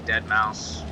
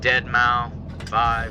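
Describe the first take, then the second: First: The name ends without the word five. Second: The name ends with the word five spoken. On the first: "some people say" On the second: "Some people pronounce it"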